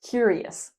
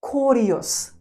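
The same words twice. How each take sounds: First: The first syllable sounds like cure. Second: The first syllable sounds like core. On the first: The speaker calls it right. "We say cure" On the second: The speaker calls it wrong. "not core, not curious"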